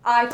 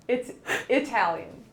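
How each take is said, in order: First: "Italian" said with a long I, eye-TAL-yun; dad's eye-talian. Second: "Italian" with a short i, ih-TAL-yun; correct Italian. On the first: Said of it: "He says I". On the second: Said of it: "And I say". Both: Retold or imitated.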